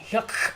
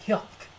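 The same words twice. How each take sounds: First: The final consonant is released strongly. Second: The final consonant is barely audible and soft. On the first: The speaker calls it wrong. "instead of going hyuk" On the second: The speaker calls it right. "you gotta make it really soft"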